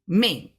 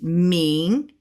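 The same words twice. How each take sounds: First: The pitch falls sharply from high. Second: The pitch stays high and level. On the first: "and a fourth tone" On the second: "a first tone"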